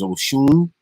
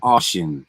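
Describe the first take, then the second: First: The name ends with a 'shun' sound. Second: The name ends with a 'shin' sound. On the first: "The way to pronounce that is Oshun" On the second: "She said Oshin"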